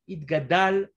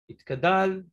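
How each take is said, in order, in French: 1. La consonne après 'it' est un son g accentué. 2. La consonne après 'it' est un son k. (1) "V'adgish adjimel shel teva itgadal" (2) "shelo nire itkadal"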